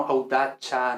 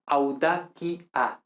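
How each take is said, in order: First: "audacia" said au-DA-cha; "audacia" with an Italian-style ch. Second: "audacia" slowly as au-DA-ki-a; hard K in "audacia". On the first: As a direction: put a "ch" in "audacia". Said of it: "no audacia". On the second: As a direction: spell out "audacia" slowly with a K sound. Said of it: "pronunciamos siempre P, T, K". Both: Shown as a demonstration.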